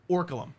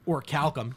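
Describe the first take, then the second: First: The middle sounds like 'kal' with no 'k' after 'l'. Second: The middle sounds like 'kalk' with 'k' after 'l'. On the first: The speaker calls it wrong. "I called it Orkalum as a kid" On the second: The speaker calls it right. "it's or calcum"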